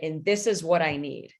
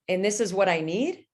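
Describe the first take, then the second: First: The pitch falls firmly at the end. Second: The pitch goes up at the end. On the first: The speaker is telling, not asking. The speaker calls it right. "a voice where you say" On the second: The speaker is asking, not telling. The speaker calls it wrong.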